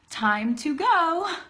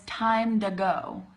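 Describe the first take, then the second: First: The word 'to' has a clear T sound. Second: The word 'to' is reduced to a D-like 'duh'. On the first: The speaker calls it wrong. "Nobody says that" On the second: The speaker calls it right. "I'm saying time duh, like D"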